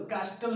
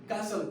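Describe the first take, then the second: First: कास्टल with a clear t after s; T sounded in कास्टल. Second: कासल with s and no t; silent T in कासल. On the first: Teacher rejecting the misreading कास्टल, t pronounced. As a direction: say कास्टल wrongly, voicing the t. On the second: Teacher showing the right reading of कासल, t silent. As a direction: say कासल, going from s into the ending. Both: Shown as a demonstration. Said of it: "कास्टल नहीं पढ़ेंगे".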